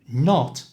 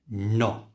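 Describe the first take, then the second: First: The final t sound is pronounced. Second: The final t sound is dropped. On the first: "So not becomes no" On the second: "So not becomes no"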